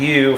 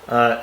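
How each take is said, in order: First: The vowel sounds like the letter's name. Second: The vowel is the short sound, as in under. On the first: "U for its long form" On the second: "as in under uh, for the short form"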